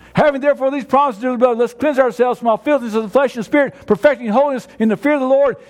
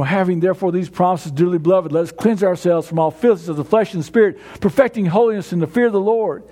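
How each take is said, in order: First: Brisk recitation. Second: Low, gentle scripture reading. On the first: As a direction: rattle it off from memory with conviction. Same verse recited again, brisker. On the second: Verse recited softly, then again. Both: Shown as a demonstration.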